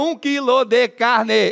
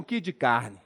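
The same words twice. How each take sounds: First: Every syllable of the phrase is said clearly. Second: Syllables are dropped and run together quickly. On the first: This is how people elsewhere in Brazil say it. "Qualquer lugar do Brasil" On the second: This is how people from Minas say it. "Diminuir a quantidade de sílabas dentro da mesma frase. ... Em Minas"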